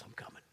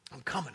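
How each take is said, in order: First: Soft prayer. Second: Urgent prayer. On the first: Prayer acted softly, then repeated. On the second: Same prayer repeated, now louder. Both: Acted.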